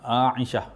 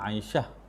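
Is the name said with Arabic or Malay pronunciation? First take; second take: Arabic; Malay. First: The name is said with Arabic sounds. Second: The name is said with Malay sounds. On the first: The speaker calls it right. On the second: The speaker calls it wrong. "bukan Aisyah"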